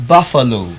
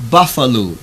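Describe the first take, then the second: No difference in how they are said.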